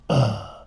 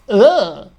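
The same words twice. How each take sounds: First: A small, restrained grunt. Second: A big, exaggerated grunt.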